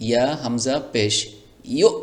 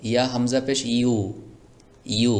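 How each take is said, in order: First: ইউ said with a catch in the throat; correct pronunciation demo. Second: ইউ said loose, without the hamza catch; wrong pronunciation demo. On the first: Teacher shows students the correct stopped ইউ. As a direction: stop the ইউ sharply at the hamza. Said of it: "যদি আপনি এভাবে বলতে পারেন". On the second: Teacher shows students the wrong, unstopped ইউ. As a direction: say ইউ without the stop in the throat. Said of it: "যদি আপনি এভাবে বলেন". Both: Shown as a demonstration.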